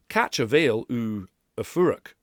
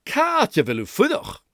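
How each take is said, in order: First: "Catch a veil u a furach" in slow flat English sounds; anglicised "Catch a veil u a furach"; English phonology. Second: "Catch a veil u fudach" higher, dynamic, short vil; lively Gaelic "Catch a veil u fudach". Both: Shown as a demonstration. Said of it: "listen to the difference between".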